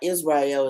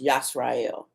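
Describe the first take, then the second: First: The word begins with an 'iz' sound. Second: The word begins with a 'yas' sound. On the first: The speaker calls it wrong. "it's not Israel" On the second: The speaker calls it right. "it's Yasrael"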